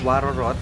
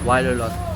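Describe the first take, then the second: First: The inner consonants are pronounced as r sounds. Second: The inner consonants are pronounced as l sounds. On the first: It is read the way it is spelled. The speaker calls it wrong. "Pag binasa mo siya guys is" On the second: It is said the way locals say it. The speaker calls it right. "pag yung tamang pagbigkas daw is"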